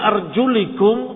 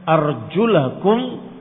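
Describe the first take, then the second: First: The vowel after the l is an i. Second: The vowel after the l is an a. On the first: Wipe over your feet when they are covered. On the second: Wash your feet when they are uncovered. "Kalau dibaca fathah"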